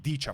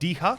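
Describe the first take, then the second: First: The middle consonant is a ch sound. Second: The middle consonant is a hard h sound. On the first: This is the Slovenian reading of the name. "This would be Dicha for us, because we have a ch" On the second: This is the Polish reading of the name. "Poles read uh, C H as a hard H"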